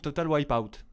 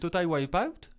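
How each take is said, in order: First: It is said with an English accent. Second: It is said without an English accent. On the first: The speaker calls it right. "beaucoup mieux" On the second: The speaker calls it wrong. "Il est parti où l'accent anglais là?"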